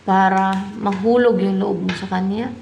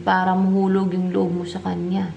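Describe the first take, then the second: First: "kanya" swung upward as a question. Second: Level statement closing on "kanya"; "kanya" settled as an answer, no questioning rise; confirming statement. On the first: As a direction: ask the cards, lifting "kanya" at the end. Asks the cards, then confirms. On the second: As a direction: confirm it without lifting "kanya". Confirms the question just asked. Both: Real, not acted.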